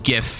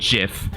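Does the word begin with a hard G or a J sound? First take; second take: hard G; J sound. First: The word begins with a hard G sound. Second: The word begins with a J sound. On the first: This is the speaker's own preferred pronunciation. The speaker calls it right. "I pronounce it GIF" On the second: This is the pronunciation the speaker rejects. The speaker calls it wrong. "not GIF, like the peanut butter"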